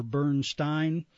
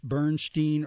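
First: Bernstein said BURN-stine; second syllable of Bernstein rhymes with "fine"; STINE pronunciation. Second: Bernstein said BURN-steen; second syllable of Bernstein rhymes with "seen"; STEEN pronunciation. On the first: Announcer giving the alternative, saying Bernstein as BURN-stine. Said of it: "it was Stein". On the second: Announcer unsure of composer's name, saying Bernstein as BURN-steen. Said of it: "Younger, he did Steen". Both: Shown as a demonstration.

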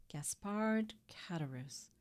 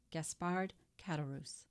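First: Put-on slow, drawn-out Italian-accented name. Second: Said in the usual way. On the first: A narrator's reading. Priest pondering the innkeeper's name, slow Italian accent. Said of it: "with a very heavy Italian accent".

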